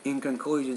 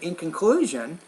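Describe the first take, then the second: First: The stressed syllable is said weakly and flatly. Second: The stressed syllable is said strongly and clearly. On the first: The speaker calls it wrong. "instead of saying in conclusion" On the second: The speaker calls it right. "say in conclusion, remember that when you stress that stressed syllable"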